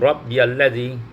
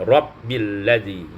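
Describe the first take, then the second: First: A 'ya' syllable is heard after 'Rabbi'. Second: No 'ya' syllable is heard after 'Rabbi'. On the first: This is one traditional reading of the verse. "kalau riwayat Imam uh, Hafaz itu Rabbiyalladzi" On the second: This is another traditional reading of the verse. "Kalau qiraat Imam Hamzah disukunkan Rabbilladzi"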